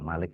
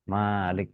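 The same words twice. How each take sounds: First: The first vowel is kept short. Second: The first vowel is drawn out long. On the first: It means king. "kalau Malik raja" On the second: It means ruler or master. "Malik penguasa"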